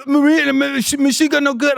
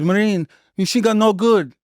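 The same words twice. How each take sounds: First: Iraqi soldier's broken English. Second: Lightly put-on Iraqi accent, a bit higher; quick hint of the Iraqi trainee's accent; Iraqi soldier's broken English. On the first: Retold or imitated. Iraqi recruit pleading with the Marine, high, hammed-up Iraqi accent. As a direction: replay the Iraqi trainee, hammed-up, with a stammer. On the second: Quoting the Iraqi recruit, a mild Iraqi accent. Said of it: "He says".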